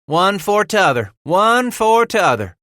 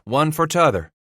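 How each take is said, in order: First: Smiling repetition. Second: Said in the usual way. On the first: A narrator's reading. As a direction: chime in with a ready smile. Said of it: "repeated with that ready smile of his". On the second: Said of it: "Bass said".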